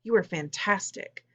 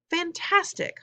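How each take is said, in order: First: Said in the usual way. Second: Much higher, choked-up echo; barely able to get it out; overcome with emotion. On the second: A narrator's reading. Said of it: "so emotional she could barely talk".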